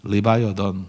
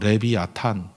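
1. 이름은 미국 영어 모음으로 나요, Li-bai-eo-deon. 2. 이름은 쓰인 대로 읽어요, Le-bi-a-tan. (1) "영어식 발음 미국 애들은" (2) "발음 그대로 하면"

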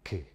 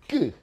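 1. 자음을 약하게 터뜨려요. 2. 자음을 더 세게 터뜨려요. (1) "터뜨려" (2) "좀 더 세게 터뜨려"

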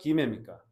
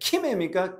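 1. 유성 g 소리로 시작합니다. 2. 무성 k 소리로 시작합니다. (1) "기매는 유성음이고" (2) "절대 키매 쓰지 않아"

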